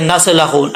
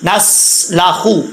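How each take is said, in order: First: नस्लखु with a bounce on the स; wrong qalqala. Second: नस्लाखु slow, स held smoothly without bounce; correct, no bounce. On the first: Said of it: "अक्सर लोग यहाँ पे कलकला कहा जाते हैं". (नस्लखु में स पर कलकला, गलत) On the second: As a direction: say नस्लाखु slowly with a steady स. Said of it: "कैसे पढ़ेंगे?". (नस्लाखु धीमे, स बिना उछाल) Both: Shown as a demonstration.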